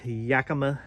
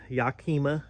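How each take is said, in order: First: Yakima said YAK-uh-muh, flat short a; first try at Yakima. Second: Yakima said yah-KEE-muh, open ah and long ee; corrected Yakima. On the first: Showing off a bike rack, says Yakima as YAK-uh-muh. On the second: Repeats the rack brand, now says Yakima as yah-KEE-muh. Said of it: "that Yakima". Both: Real, not acted.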